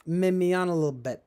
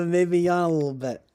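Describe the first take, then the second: First: Said in the usual way. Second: Words stretched by a yawn. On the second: Real, not acted. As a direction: say it mid-yawn, mouth wide open.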